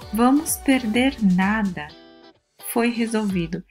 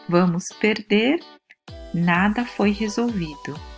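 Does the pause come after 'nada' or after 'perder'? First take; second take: after nada; after perder. First: The pause comes right after 'nada'. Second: The pause comes right after 'perder'. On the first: We will lose nothing because it was solved. "Se vamos perder nada, quer dizer que nada vamos perder" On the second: We are going to lose because nothing was solved. "Significa que vamos perder, nós estamos quase perdendo"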